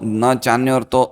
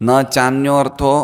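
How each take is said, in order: No difference in how they are said.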